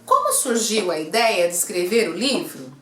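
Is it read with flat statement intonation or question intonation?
question. It is read with the intonation of a question. The speaker calls it right. "Eu tenho que ler com entonação de pergunta"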